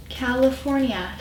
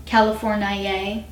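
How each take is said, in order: First: Said in the usual way. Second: "Californiae" said slowly with a long added "ay" ending; mock native pronunciation. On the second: Shown as a demonstration. Vlogger shows how the natives say it, slow mock pronunciation. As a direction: stretch "Californiae" out with a drawn final "ee-ay". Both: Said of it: "that's what the natives call it".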